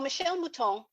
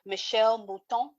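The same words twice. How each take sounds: First: The name is said with an English accent. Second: The name is said with a French accent. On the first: "I'm going to not do that anymore" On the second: "That's my best attempt at a French accent"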